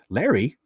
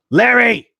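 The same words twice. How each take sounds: First: Said in the usual way. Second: Sudden high, loud shout of the name; shouted far above normal talk; calling out. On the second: Real, not acted. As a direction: holler it at Larry in disbelief. Calls out donor in mock outrage.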